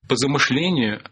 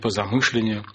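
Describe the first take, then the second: First: The stress falls where modern Russian places it. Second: The stress falls where Old Russian placed it. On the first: This is how it is said today. "Сейчас мы говорим" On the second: This is how it was said in old times. "а не по замышлению"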